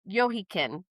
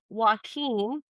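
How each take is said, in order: First: The name is said with a Hebrew pronunciation. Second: The name is said with a Spanish pronunciation. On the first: "I think it's like the Hebrew version" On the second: "that's the Spanish pronunciation"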